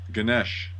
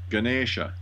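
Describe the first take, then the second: First: The name ends on the sh consonant. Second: The name ends on a final a vowel. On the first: This is the common way people say it. The speaker calls it wrong. "how about this one" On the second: This is how it should be said. The speaker calls it right. "It's supposed to be"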